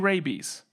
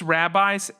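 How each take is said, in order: First: It is said like the word rabies. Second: It is said like the word rabbis. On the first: "It could be rabies" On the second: "I'm assuming it's rabbis"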